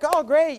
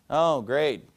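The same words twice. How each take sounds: First: It sounds happy and excited. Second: It sounds flat and dismissive.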